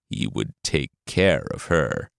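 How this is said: It is said in a menacing, evil tone.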